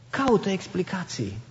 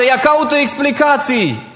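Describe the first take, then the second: First: Echoed much softer, near a hush; soft repeat. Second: Said in the usual way. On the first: Shown as a demonstration. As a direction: drop the voice and repeat it gently to the listener.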